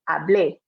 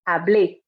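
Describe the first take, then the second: First: The stress falls on the last syllable. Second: The stress falls on the last syllable.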